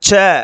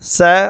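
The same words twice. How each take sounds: First: The consonant is said hard, with full force. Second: The consonant is said softly, with weakened force. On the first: "வலிமையாகவே ஒலிக்கும்" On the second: "வலிமை குறைந்து"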